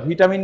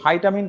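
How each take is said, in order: First: The first syllable is said as 'vee'. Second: The first syllable is said as 'vai'. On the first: The speaker calls it wrong. "ভুল উচ্চারণগত তাকে ভিটামিন উচ্চারণ করা হয়ে থাকে" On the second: The speaker calls it right. "সঠিক উচ্চারণটা হচ্ছে ভাইটামিন"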